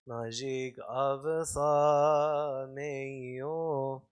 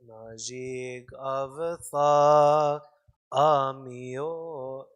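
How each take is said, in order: First: It goes straight into the m sound. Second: An extra vowel comes before the m sound. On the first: The speaker calls it wrong. "I used to say it wrong... I go straight into the M" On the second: The speaker calls it right. "There's an extra hazza"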